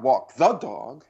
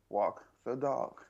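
First: One word carries a strong accent. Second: All three words are said evenly. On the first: The speaker calls it wrong. "It's not walk the dog" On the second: The speaker calls it right. "Not an accent on it. It's just walk the dog"

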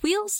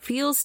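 First: The name begins with a W sound. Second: The name begins with a V sound.

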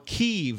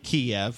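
First: Kiev is said the way locals say it. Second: Kiev is said the usual English way.

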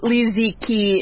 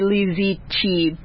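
First: The last syllable starts with a hard k sound. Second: The last syllable starts with a ch sound. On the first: The speaker calls it wrong. "It wouldn't be Leziki" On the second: The speaker calls it right. "the Q-I is Chi, not Ki"

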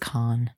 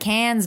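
First: The vowel sounds like the one in 'con'. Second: The vowel sounds like the one in 'can'. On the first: The speaker calls it right. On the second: The speaker calls it wrong.

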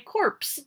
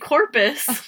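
First: The word is said with one syllable. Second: The word is said with two syllables. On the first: The speaker calls it right. "We say corpse" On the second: The speaker calls it wrong. "we don't say corpus"

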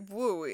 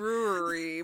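First: The word is clipped to two syllables, without r. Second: The word is said in full, with its r sounds.

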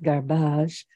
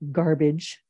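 First: It is said in a Southern US accent. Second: It is said in a neutral, non-Southern accent.

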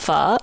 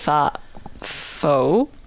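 First: The word is said the traditional Vietnamese way. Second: The word is said an anglicized Canadian way. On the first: The speaker calls it right. "Traditionally, it's pronounced pho" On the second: The speaker calls it wrong. "I'm so Canadian that sometimes I forget, and I say pho"

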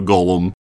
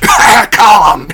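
First: It is a low, froglike croak from the throat. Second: It is a forced, coughing sound. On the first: "a sound he makes in the bottom of his throat that's more like a Gollum, almost like a frog" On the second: "his Gollum sound is a cough"

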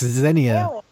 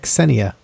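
First: The name begins without an S sound. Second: The name begins with an S sound. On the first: The speaker calls it wrong. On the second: The speaker calls it right. "Pronounce it with an S, yes"

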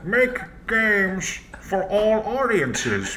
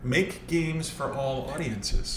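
First: It is said in a put-on villain voice. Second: It is said in the speaker's ordinary voice.

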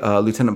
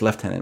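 First: It is pronounced the American way, loo-tenant. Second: It is pronounced the British way, lef-tenant. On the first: The speaker calls it wrong. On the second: The speaker calls it right.

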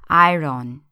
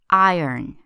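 First: It is said with a Portuguese-influenced pronunciation. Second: It is said with a native English pronunciation. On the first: The speaker calls it wrong. "consult your frame of reference for pronunciation, which is Brazilian Portuguese" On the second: The speaker calls it right. "It's more like iron"

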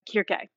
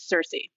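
First: The name begins with a hard K sound. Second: The name begins with a soft S sound. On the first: This is the original Greek pronunciation. "the original Greek is CIRCE. So it's the hard C sound" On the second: This is the modern English pronunciation. "the modern day English pronunciation"

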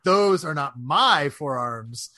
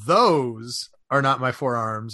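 First: The stress is on "my". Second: The stress is on "those".

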